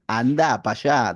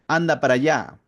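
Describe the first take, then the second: First: It is said with an Argentine accent. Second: It is said with a Peruvian accent.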